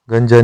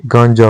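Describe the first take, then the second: First: गंजा with short first vowel; wrong form. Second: गांजा with long nasalised aa; correct form. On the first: Teacher showing learners the mistake, short-vowel गंजा. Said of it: "नहीं". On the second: Teacher giving the correction, गांजा with nasal long vowel. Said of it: "चंद्रबिंदु के साथ". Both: Shown as a demonstration.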